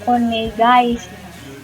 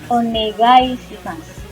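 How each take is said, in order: The two takes are said the same way.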